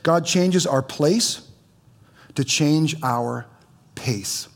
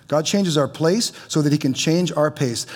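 First: "changes" and "pace" drawn out slowly, each word weighed; slow emphatic. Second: Said in the usual way. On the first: Shown as a demonstration. Pastor slowly spelling out the key line for the congregation. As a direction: lay out "God changes our place to change our pace" slowly, pausing before "pace". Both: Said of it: "And listen to this".

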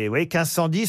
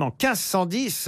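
First: Dix lifted and leaned on; stress on dix. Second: Said in the usual way. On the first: Shown as a demonstration. Host repeats the date to the players, stressing dix. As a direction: hit dix in quinze cent dix.

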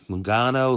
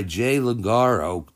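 First: Logano said properly with the N; corrected name. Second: Logaro said with an R, slow and unsure; mispronounced name. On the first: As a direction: fix it to Logano, clear N in the middle. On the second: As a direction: stumble over Logaro, the R where the N belongs. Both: Real, not acted.

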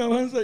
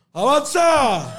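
First: Said in the usual way. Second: Drawn-out yell, higher and louder; heckler yell. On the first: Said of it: "alguien decirme". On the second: Retold or imitated. Heckler in the crowd yelling at the comedian, long loud yell. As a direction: bellow it like a heckler from the back. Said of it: "yo escucho a alguien gritar".

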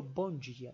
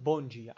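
First: "Bon dia" said the Catalan way, soft and low; casual imitated classroom greeting. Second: "Bon dia" with a Catalan dj sound, falling; lightly acted morning greeting. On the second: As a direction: greet the class Catalan style. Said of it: "lo primero que digo es".

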